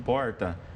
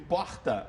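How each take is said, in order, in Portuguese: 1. Diz-se com sotaque do interior rural de São Paulo. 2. Diz-se com sotaque do Rio de Janeiro. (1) "o sotaque caipira aqui de São Paulo" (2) "E quando a gente ouve porta"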